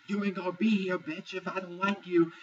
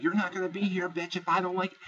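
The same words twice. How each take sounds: First: Much higher, squaring up with a head bob; imitating Lauren's high, threatening yell; mock threat again. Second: Much higher, jabbing the threat at her; imitating Lauren's high, threatening yell; mock screaming threat. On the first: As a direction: repeat the threat in a high, mocking voice. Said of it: "She's like, she goes like". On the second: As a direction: threaten her with the head bobbing, voiced high. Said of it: "starts screaming at her".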